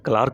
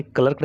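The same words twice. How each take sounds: First: "क्लार्क" said as klaark; long open "aa" before the r in "क्लार्क"; correct "क्लार्क" pronunciation. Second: "क्लर्क" said as klurk; short central vowel before the r in "क्लर्क"; wrong "क्लर्क" pronunciation. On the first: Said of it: "क्या पढ़ेंगे?". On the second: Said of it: "आप इसे क्लर्क नहीं पढ़ेंगे". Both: Shown as a demonstration.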